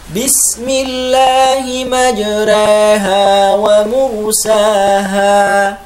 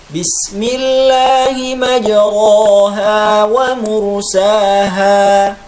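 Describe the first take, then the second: First: The vowel after r is halfway between a and e. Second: The vowel after r is a plain open a. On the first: "dibaca taklil... contoh yang kurang tepat" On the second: "membaca imalah seperti membaca fathah"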